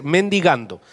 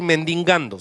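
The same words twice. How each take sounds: First: MENDIGANDO said cleanly, no n before the g; correct pronunciation. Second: MENDIGANDO said with an extra nasal n, as "mendingando"; wrong pronunciation. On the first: Preacher correcting himself for church, MENDIGANDO pronounced as "men-di-gan-do". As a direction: say MENDIGANDO with a plain open "di". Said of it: "se dice mendigando". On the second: Preacher showing church the wrong word, MENDIGANDO mispronounced as "mendingando". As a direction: slip an extra n into MENDIGANDO before the g. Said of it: "No voy a decir mendigando". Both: Shown as a demonstration.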